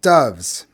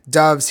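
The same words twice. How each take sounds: First: Said in the usual way. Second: Louder, higher, about to strike; menacing repeat. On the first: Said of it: "Makarenko said". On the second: A narrator's reading. Cripple repeating the word before slapping boy, menacing. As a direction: spit the word before a slap. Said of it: "he repeated and slapped me".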